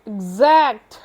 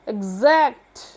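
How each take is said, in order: The two takes are said the same way.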